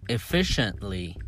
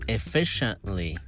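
The two takes are said the same way.

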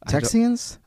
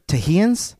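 First: The middle consonant is a 'ks' sound. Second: The middle consonant is an 'h' sound. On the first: "would they pronounce that X like an X" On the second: "Or Tahians?"

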